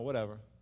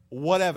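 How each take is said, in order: First: The word sounds dismissive and uninterested. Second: The word sounds open and willingly accepting. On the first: No, I don't care. The speaker calls it wrong. "they say something like that" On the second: I will gladly accept whatever is asked of me. The speaker calls it right. "You want to be like that horse that goes, "Whatever God says.""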